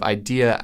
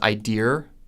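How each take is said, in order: First: The word ends in a plain vowel without R. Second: The word ends with an added R sound.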